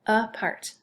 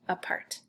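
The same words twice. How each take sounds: First: "apart" as "uh", short gap, "part"; split by syllable. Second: Said in the usual way. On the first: Shown as a demonstration. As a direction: separate both syllables of "apart". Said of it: "and then part". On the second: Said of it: "So no space".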